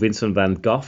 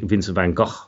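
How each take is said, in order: First: The name is said with an English pronunciation. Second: The name is said with a Dutch pronunciation. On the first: The speaker calls it wrong. "is how I used to know it" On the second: The speaker calls it right. "the Dutch way of saying it"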